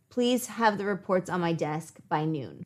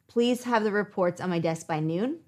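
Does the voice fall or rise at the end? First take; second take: fall; rise. First: The voice falls at the end. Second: The voice rises at the end. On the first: It is a firm instruction. The speaker calls it right. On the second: It sounds like a question that gives an option. The speaker calls it wrong.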